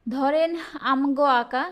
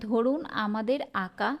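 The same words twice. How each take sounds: First: ধরেন and contracted আমগো, pushed a little louder; regional dialect. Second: ধরুন and full আমাদের, evenly said; standard form. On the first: Teacher reads out a regional phrase, dialect pronunciation. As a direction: say আমগো in two syllables, dialect style. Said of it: "আঞ্চলিক বাক্য". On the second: Teacher gives the standard version of the phrase, standard pronunciation. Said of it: "এটার প্রমিত রূপ কি হবে?". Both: Shown as a demonstration.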